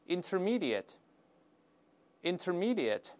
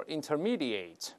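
First: "intermediate" ending in a weak, short "-ət"; correct adjective pronunciation. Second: "intermediate" ending in a full "-ate", like "eight"; mistaken verb-style ending. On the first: Teacher has students read the word aloud, correct short-ending pronunciation. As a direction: slowly model "intermediate" with reduced last syllable. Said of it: "中级的我们大声读一下". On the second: Teacher warns students against this reading, mistaken long-ending pronunciation. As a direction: say "intermediate" wrongly, with a long "ay" in the last syllable. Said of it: "注意不要读".

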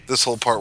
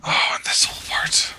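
First: Said in the usual way. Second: Hushed dread, no voice; whispering. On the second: Real, not acted. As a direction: breathe it like a secret. Realizing a dreaded game section.

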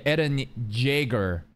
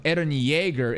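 First: "Jaeger" said with a hard J sound; knockoff mispronunciation. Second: "Yeager" said with a Y sound; original name pronunciation. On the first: Reactor invents a knockoff name, slow "Jaeger" with a J. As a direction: slowly say "Jaeger" starting like "jay". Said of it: "it's Ye-, Eren Jaeger". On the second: Reactor gives the real character name, "Yeager" with a Y. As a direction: say "Yeager" starting like "yay". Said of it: "Instead of Eren Yeager". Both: Shown as a demonstration.

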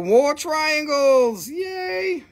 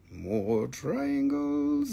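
First: High, very slow gleeful announcement; excited. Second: Quiet, very slow, rising at the end; soft drawn-out echo. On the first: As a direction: stretch it out in delight. Excited reveal of stones. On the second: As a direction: savor it under your breath. Repeats reveal softly. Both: Real, not acted.

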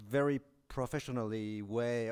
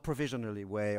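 First: Professionally said clearly with a French accent, the word he means; clarified word. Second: Provisionally said as the word he did not mean; contrasting word. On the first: Lecturer stressing the word he means, careful pronunciation. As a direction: set professionally apart from provisionally. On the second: Lecturer ruling out a misheard word, careful contrast. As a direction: give provisionally its own sounds, unlike professionally. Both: Shown as a demonstration. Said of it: "n-, not provisionally way".

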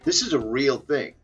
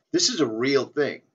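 No difference in how they are said.

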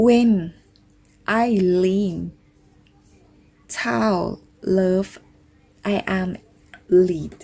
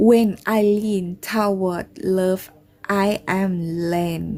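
First: Halting word by word, "lead" said like "leed"; tentative English with long gaps between words, "lead" rhyming with "need"; unsure English reading. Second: Slow but more connected, "led" with a short e; careful second attempt at English, "led" said with a short vowel; corrected English reading. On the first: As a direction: sound out the English slowly, saying "lead" as "leed". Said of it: "เขาออกเสียงถูกไหมเนี่ย". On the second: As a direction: read the English carefully, saying "led" to rhyme with "bed". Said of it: "ออกเสียงถูกไหมคะ น่าจะออกเสียงถูกนะ".

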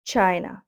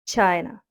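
Both takes have the same delivery.

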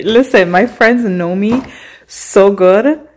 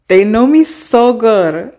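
First: Said in the usual way. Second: Slow, loud stress on "so good"; emphatic repeat. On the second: Shown as a demonstration. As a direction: lean hard into "so good".

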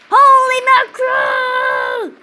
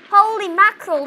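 First: Hammed-up panicked shout, drawn out; disaster movie extra. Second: Said in the usual way. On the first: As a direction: yell it like a doomed extra in a disaster film. Volcano and tsunami hit.

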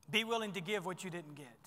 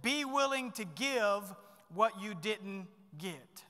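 First: Said in the usual way. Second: Slow and deliberate, each word weighted; dictating a point slowly; slow emphatic key point. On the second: Shown as a demonstration. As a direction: spell it out slowly so they can write it down. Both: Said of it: "Write these down".

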